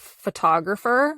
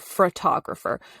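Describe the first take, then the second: First: It is said as spelled, without an r. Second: An r sound follows the f. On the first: The speaker calls it right. "which is phonetically" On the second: The speaker calls it wrong. "it makes my skin crawl a little bit"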